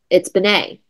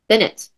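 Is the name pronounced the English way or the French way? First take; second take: French; English. First: The name is pronounced the French way. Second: The name is pronounced the English way. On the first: The speaker calls it right. "her family was French" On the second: The speaker calls it wrong. "That's not the English way of spelling"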